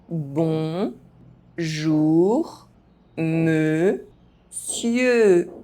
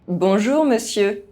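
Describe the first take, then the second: First: The phrase is spoken very slowly. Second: The phrase is spoken fast. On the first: "very slowly" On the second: "fast, as a native speaker would do"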